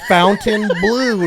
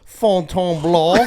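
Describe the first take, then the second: First: The name is said with an Americanized pronunciation. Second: The name is said with a French pronunciation. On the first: "ignorant American pigs with no culture, and we say fountain blue" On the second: "not Fontainebleau"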